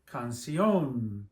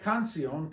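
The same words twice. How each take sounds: First: The stress falls on the final o sound. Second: The stress falls on the first syllable, can. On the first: The speaker calls it right. "we say canción" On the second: The speaker calls it wrong. "We don't say canción"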